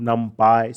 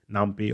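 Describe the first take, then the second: First: Numpy pronounced to rhyme "py" with pie; numpy ending "pie". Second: Numpy pronounced with "py" like pea; numpy ending "pee". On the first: Lecturer showing students one pronunciation, numpy ending in "pie". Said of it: "Sometimes it is pronounced as". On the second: Lecturer giving students the alternative pronunciation, numpy ending in "pee". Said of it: "so it's your choice". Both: Shown as a demonstration.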